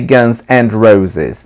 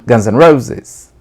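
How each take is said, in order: First: The word 'and' is said in full. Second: The word 'and' shrinks to an N sound. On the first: The speaker calls it wrong. "They don't say Guns and Roses" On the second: The speaker calls it right. "They say Guns N' Roses"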